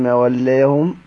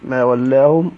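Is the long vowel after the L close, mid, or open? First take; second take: mid; open. First: The vowel after L sits between ah and ee. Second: The vowel after L is a fully open ah. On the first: "بالتقليل" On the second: "بالفتح"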